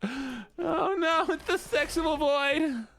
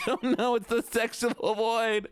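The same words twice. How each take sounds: First: Even higher, slow whine; whiny voice. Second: High, slow whiny wail. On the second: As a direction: whine it out, drawn and high. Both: Pretend. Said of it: "I need to do the whiny voice".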